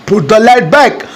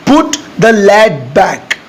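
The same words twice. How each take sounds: First: Said in the usual way. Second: Word by word, very slow; slow dictation pace. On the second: Shown as a demonstration. Teacher dictating the English sentence to students, very slow. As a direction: spell it out slowly for learners. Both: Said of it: "ढक्कन लगाने को आप simply बोलिएगा".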